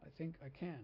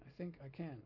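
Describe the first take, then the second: First: The emphasis gives a chugging train-like rhythm. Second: The emphasis gives a chugging train-like rhythm.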